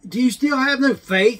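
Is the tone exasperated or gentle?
exasperated. The question sounds exasperated and scolding. The listener is being scolded for lacking faith. The speaker calls it wrong. "It wasn't, ... I mean, come on. It's not that"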